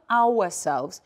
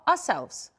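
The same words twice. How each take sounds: First: The first syllable is a full, slower 'our'. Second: The first syllable is a quick, reduced 'ah'. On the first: The speaker calls it wrong. "we pronounce it as not ourselves" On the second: The speaker calls it right. "but ah, ourselves. We make it faster"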